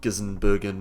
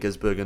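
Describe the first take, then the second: First: The name is said as Gis-sen-ber-gen. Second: The name is said as Gis-ber-gen. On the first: The speaker calls it wrong. "not Gissenbergen, or however the hell they try and pronounce it" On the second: The speaker calls it right. "it is Shane van Gisbergen"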